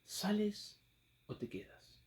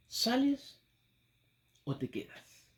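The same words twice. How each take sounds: First: ¿Sales said softly, o te quedas? breathed in a whisper; ¿Sales o te quedas? hushed, almost a whisper; whispered question. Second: ¿Sales? cried out high, then o te quedas? falling away; sharp rising question. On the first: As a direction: lean in and whisper the choice. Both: Shown as a demonstration. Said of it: "Ese fue el subtema".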